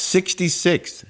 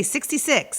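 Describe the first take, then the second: First: Sixty-six drawn out slow and high, s sounds lisped; lisping. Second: Sixty-six said as thikty-thikth with a lisp. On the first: Shown as a demonstration. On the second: Retold or imitated. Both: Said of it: "he was lisping".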